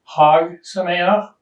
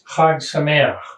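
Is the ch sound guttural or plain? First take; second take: plain; guttural. First: The ch sounds are made without any throatiness. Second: The ch sounds are made as throaty gutturals. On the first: Happy pig. The speaker calls it wrong. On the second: Happy festival. The speaker calls it right.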